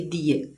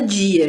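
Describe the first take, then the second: First: The first sound is a plain d. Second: The first sound is like an English j. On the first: Fewer people in Brazil say it this way. "do que dia" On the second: This is how most people in Brazil say it. "já tem um J aqui, ó, dia. A maioria das pessoas fala dia aqui no Brasil"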